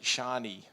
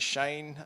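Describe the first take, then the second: First: The name ends with an ee sound. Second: The name ends with an n sound. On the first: The speaker calls it wrong. "they they pronounce it Shani" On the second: The speaker calls it right. "my name is Shane"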